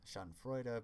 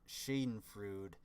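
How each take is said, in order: First: The word is said with a German pronunciation. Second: The word is said with an Americanized pronunciation. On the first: The speaker calls it right. "in German you actually pronounce like" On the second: The speaker calls it wrong. "it makes it sound kind of dumb"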